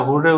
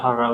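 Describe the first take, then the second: First: হুররে said with "hu" first and "re" at the end; pronunciation demo. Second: হাররা said with "ha" first and "ra" at the end; pronunciation demo. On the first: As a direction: say হুররে as "hur-re". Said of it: "এটা হুররে উচ্চারণ". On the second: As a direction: say হাররা as "har-ra". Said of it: "এটা হাররা উচ্চারণ". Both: Shown as a demonstration.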